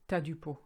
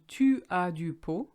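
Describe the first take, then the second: First: Tu and as merge into one syllable. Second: The words tu and as are said separately. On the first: This is how people actually say it. "I've written it down as we say it" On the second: This is the standard written form. "Obviously it should be tu as du pot"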